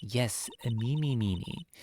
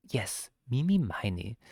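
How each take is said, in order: First: Mimi Mimi said with both halves as mimi; misread name. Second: Mimi Miny with Miny as my-nee; corrected name. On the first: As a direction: say Mimi Mimi, second word also mimi. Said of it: "it should be Miney". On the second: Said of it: "I wanna go Mimi Miny". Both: Shown as a demonstration.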